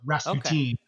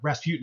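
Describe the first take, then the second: First: The name is said as the song says it. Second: The name is said in an everyday way.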